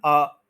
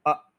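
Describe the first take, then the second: First: अ held long, aah; overlong schwa. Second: अ as tiny uh, cut off; short schwa. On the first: Teacher showing the error, lengthened अ. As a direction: stretch अ past a brief uh. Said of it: "लंबा करेंगे तो ये गलत". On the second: Teacher demonstrating schwa, very short अ. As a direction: end अ the instant it begins. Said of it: "start होता ही ये खत्म हो जाए". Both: Shown as a demonstration.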